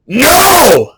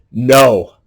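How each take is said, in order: First: "no!" yelled much higher and much louder; "no!" shouted from the gut; full shout. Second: Said in the usual way. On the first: Shown as a demonstration. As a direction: belt out the word "no!" with full force. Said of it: "not just no, but". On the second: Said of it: "And, and not just no".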